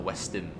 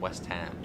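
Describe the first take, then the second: First: The syllable 'ham' is said weakly. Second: The syllable 'ham' is said strongly. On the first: This is how most people say the name. The speaker calls it wrong. "not Westham" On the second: This is the correct way to say the name. The speaker calls it right. "You have to sort of proper get a, a strong ham"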